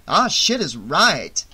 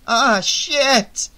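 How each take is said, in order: First: Slow, emphatic agreement; drawn-out, swooping confirmation; agreeing. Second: Loud, high-pitched alarm; panicked, high outburst; emphatic gasp. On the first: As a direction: confirm it grimly, stretching the words. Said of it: "Vera agreed". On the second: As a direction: exclaim it in sudden dismay. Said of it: "Shelley gasped with emphasis". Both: A narrator's reading.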